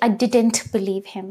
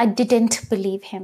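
First: The T in 'didn't' is clearly pronounced. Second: The same.

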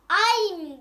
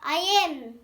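First: It is said as one short joined syllable. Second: It is said as two separate syllables. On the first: "Kısası. ... ay'm diye okunur" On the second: "I am diye okunur"

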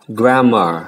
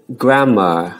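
No difference in how they are said.

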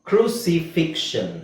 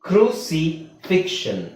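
Both takes have the same delivery.

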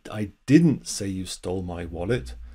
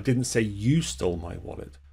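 First: The stress falls on the word 'didn't'. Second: The stress falls on the word 'you'. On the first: The speaker firmly denies saying it. "that's just emphasizing the negative" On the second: Someone else stole it. "I said someone else stole it"

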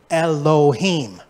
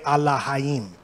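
First: The word begins with an 'eh' sound and has an 'oh' vowel. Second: The word begins with an 'ah' sound and has an 'ah' vowel. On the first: This is the modern Hebrew pronunciation. The speaker calls it wrong. "This is how you say it in modern Hebrew. They say Elohim" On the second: This is the pronunciation the speaker's group uses. The speaker calls it right. "There's only A's and I's. So we say Elohim"

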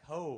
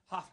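First: The name ends in an open vowel, like ho. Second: The name ends in an f sound, like huff. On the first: The speaker calls it wrong. "I want to say like ho" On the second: The speaker calls it right. "That's right"

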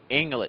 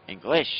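First: The stress is on the first syllable. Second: The stress is on the last syllable. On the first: "Like in English, you will say" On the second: "In French, you have to put the accents in the ends of all words"

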